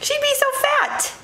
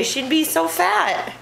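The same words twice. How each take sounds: First: Much higher, playful squeak; high squeaky voice. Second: Said in the usual way. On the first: Shown as a demonstration. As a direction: squeak it out teasingly.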